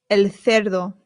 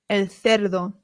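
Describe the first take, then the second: No difference in how they are said.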